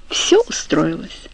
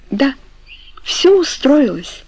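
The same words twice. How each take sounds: First: Said in the usual way. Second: High, slow echo of the other's words. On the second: A narrator's reading. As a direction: repeat it like an echo, drawn out and higher. (как эхо, высоко и протяжно) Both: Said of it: "ответила Франческа как эхо".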